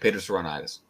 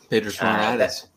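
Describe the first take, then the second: First: The phrase is said quickly. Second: The phrase is said at a normal pace.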